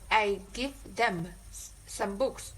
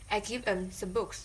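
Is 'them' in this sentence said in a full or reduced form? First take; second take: full; reduced. First: 'Them' is said in its full, strong form. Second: 'Them' is said in its reduced, weak form. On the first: "instead of saying uh" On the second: "you could say"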